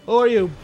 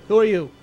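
No difference in how they are said.

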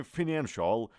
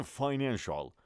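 First: Financial said as "fi-NAN-shal"; short-i pronunciation. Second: Financial said as "fy-NAN-shal"; long-i pronunciation. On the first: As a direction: start financial with "fin". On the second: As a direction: start financial with "fine". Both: Shown as a demonstration.

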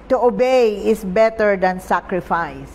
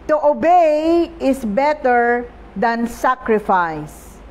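First: Said in the usual way. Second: "To obey is better than sacrifice" read slowly and solemnly, leaning on "obey"; scripture reading. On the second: Acted. Preacher reading the key verse to the congregation, slow and solemn. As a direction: let the verse land slowly, weight on "obey".

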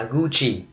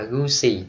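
First: Gucci with a CH sound, the Italian way; Italian pronunciation. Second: Gucci with an S sound, the wrong way; wrong pronunciation. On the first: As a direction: say Gucci as "goo-chee". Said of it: "Đọc theo tiếng Ý". ("Gucci" đọc kiểu tiếng Ý, âm CH) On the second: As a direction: say Gucci as "goo-see". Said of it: "Gucci là sai". ("Gucci" đọc sai với âm S) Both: Shown as a demonstration.

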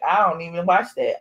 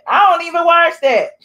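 First: Said in the usual way. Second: "I don't even watch that" higher and louder; emphatic. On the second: Shown as a demonstration. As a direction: punch the whole line up. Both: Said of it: "repeated louder".

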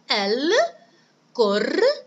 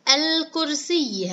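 First: الكرسي broken up as al - kur - siy - yi; slow, louder الكرسي with gaps between syllables; split into syllables. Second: Said in the usual way. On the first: Shown as a demonstration. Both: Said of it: "نقطع هذه الكلمة المشددة".

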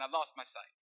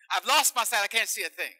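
First: Said in the usual way. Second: Loud, high overplayed complaint; hammed-up lament. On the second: Fake blind patient to doctor, loud hammed-up lament. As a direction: ham up the blindness.

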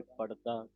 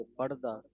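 First: ਪੜਦਾ ਪੋਲਾ ਉਚਾਰਨ; light pronunciation. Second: ਪੜਦਾ said heavy, with a stressed, pressed ੜ; ਪੜਦਾ ਭਾਰਾ ਉਚਾਰਨ; heavy pronunciation. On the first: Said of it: "ਪੋਲਾ ਪੜਾਂਗੇ". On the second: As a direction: lean hard on the ੜ in ਪੜਦਾ. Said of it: "ਭਾਰਾ ਬੋਲਾਂਗੇ". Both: Shown as a demonstration.

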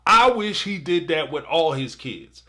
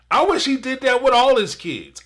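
First: Said in the usual way. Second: Pitched higher and louder on I wish he did that; raised, louder plea; emphatic wish. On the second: Real, not acted. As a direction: push the wish up and out.

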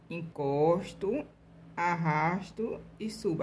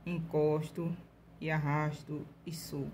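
First: Slow demo. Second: Said in the usual way. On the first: Shown as a demonstration. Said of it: "same steps repeated slowly". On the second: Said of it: "first run of the steps".

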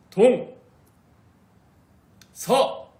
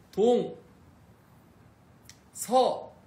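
First: Very loud, high earnest shouts; dead serious shout. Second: High, loud shouts of each direction; shouting the directions. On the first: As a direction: yell each word with total conviction. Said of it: "되게 진지하게 해야 돼". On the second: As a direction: yell each word out like a cheer. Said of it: "이렇게". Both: Shown as a demonstration.

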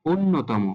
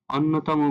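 First: "অন্যতম" with closed ও first; সঠিক উচ্চারণ. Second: "অন্যতম" with open অ first; ভুল উচ্চারণ. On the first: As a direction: begin "অন্যতম" on a rounded o. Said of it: "সঠিক উচ্চারণ হবে". ("অন্যতম"-র শুরুতে ও ধ্বনি) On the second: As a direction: begin "অন্যতম" on aw, not o. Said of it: "অন্যতম ভুল উচ্চারণ". ("অন্যতম"-র শুরুতে খোলা অ) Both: Shown as a demonstration.

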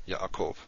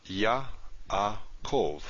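First: Said in the usual way. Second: Yaakov drawn out slowly, Ya, a, kov; slow syllable-by-syllable Yaakov; broken into syllables. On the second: Shown as a demonstration. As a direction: say Yaakov with a clear break between each syllable. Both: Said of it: "we have a syllable division here".

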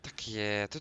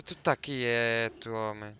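First: Said in the usual way. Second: Slow, loud stern order. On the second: Real, not acted. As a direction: spell it out to calm the beast. Ordering creature to stay.

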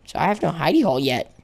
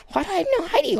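First: Said in the usual way. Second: High, fast incredulous question; mock outrage. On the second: Player baffled at lacking hidey hole, high mock outrage. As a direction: fire it off high, comically baffled.

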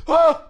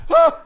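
First: High loud shriek of fright; startled scream. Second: Loud high echoing shriek; startled scream. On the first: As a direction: shriek in sudden panic. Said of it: "she threw her hands up ... like that". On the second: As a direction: scream back in fright. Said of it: "So I went ... like that". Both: Retold or imitated.

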